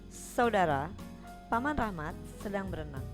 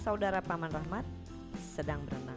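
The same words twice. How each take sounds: First: The pause falls after Saudara, before Paman. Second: The pause falls after Rahmat, before sedang. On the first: The uncle himself is the one swimming. "Paman Rahmatlah yang sedang berenang" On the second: The uncle's sibling is the one swimming. "Ini maknanya siapa yang sedang berenang? Saudara Paman Rahmat"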